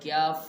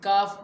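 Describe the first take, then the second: First: The k is followed by a y-glide before the vowel. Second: The k is followed directly by the vowel. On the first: The speaker calls it wrong. "क्याफ ये अरबी ज़ुबान का तलफ़ुज़ नहीं है" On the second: The speaker calls it right. "इस काफ को काफ पढ़ना भी ज़रूरी है"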